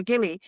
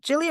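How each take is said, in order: First: "Gili" with a hard G, like "Gilly". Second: "Gili" with a soft G, like "Jilly". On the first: Traveler offering the other island pronunciation, hard-G "Gili". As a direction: say "Gili" starting as in "give". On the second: Traveler asking how the islands are pronounced, soft-G "Gili". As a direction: say "Gili" starting with a J sound. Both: Shown as a demonstration. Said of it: "Is it Gili or Gili?".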